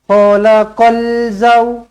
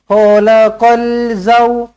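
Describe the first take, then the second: Both takes have the same delivery.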